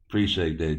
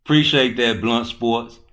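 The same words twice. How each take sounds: First: Said in the usual way. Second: Louder and higher, hyped thanks. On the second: Real, not acted. Streamer thanking Blunt Sports in chat, loud and hyped. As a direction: call out the thanks with energy.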